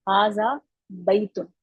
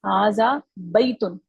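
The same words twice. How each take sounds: First: हाजा बैतुन said again slowly and carefully; corrected reading. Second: हाजा बैतुन said slowly, each word drawn out; slow model reading. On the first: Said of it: "बई पढ़ेंगे।". (सुधरा हुआ धीमा उच्चारण, हाजा बैतुन) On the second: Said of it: "इसको बैतुन नहीं पढ़ेंगे". (धीमे और साफ़ उच्चारण में हाजा बैतुन) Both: Shown as a demonstration.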